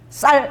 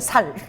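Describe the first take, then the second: First: The first consonant is tense and hard. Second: The first consonant is plain and soft. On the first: "쌀 해봐라" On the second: "살 안 되는 거야"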